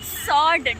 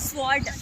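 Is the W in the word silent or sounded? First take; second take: silent; sounded. First: The W is silent in the word. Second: The W is sounded in the word. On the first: The speaker calls it right. "W silent" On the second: The speaker calls it wrong. "not sword"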